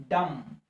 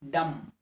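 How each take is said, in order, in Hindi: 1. अंतिम b मौन है। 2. अंतिम b मौन है।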